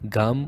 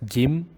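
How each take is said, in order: First: A clear A vowel follows the G. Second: A clear I vowel follows the G. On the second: "Don't make it as Gim"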